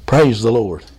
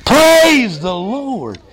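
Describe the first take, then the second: First: Very low-pitched, steady praise. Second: Slow, loud, raised-pitch praise. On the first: Preacher leading the congregation to say it with him, low voice. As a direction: drop right down low to lead them. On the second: Preacher getting the congregation to say it together, loud voice. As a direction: lift it up and draw it out loudly. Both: Shown as a demonstration. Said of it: "In a, a low voice or a loud voice".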